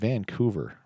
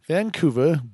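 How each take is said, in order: First: It is said in the speaker's normal voice. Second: It is said in an exaggerated movie-gangster accent.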